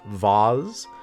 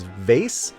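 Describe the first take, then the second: First: The vowel is an 'ah' sound, as in cars. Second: The vowel is an 'ay' sound, as in face. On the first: "it can sometimes be pronounced vase" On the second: "which makes sense given how it's spelled"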